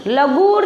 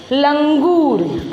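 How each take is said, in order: First: लगूर with a bare g, no ng; wrong reading, nasal dropped. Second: लंगूर drawn out slowly with a full ng; correct reading, nasal sounded. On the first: Teacher warns pupils, लगूर misread without its nasal. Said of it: "नहीं पढ़ना है". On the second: Teacher answers for pupils, लंगूर with its nasal held. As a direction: stretch लंगूर, sounding the anusvar. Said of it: "आपको क्या पढ़ना है?". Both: Shown as a demonstration.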